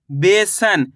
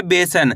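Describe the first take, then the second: First: बेसन in two parts, बे then सन; sounded-out word. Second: Said in the usual way. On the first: Shown as a demonstration. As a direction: stretch बेसन slightly, syllable by syllable. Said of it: "इस तरीके से शब्द का उच्चारण करोगे". (बेसन को बे-सन तोड़कर बोलना) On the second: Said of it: "शब्द का उच्चारण सही से सुनना है".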